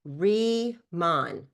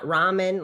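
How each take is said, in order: First: The first syllable sounds like "re" in rebirth. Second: The first syllable sounds like "rah" in ramen. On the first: The speaker calls it right. "Remon, like rebirth, rethink" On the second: The speaker calls it wrong. "not ramen, like ramen noodles ... people say it wrong"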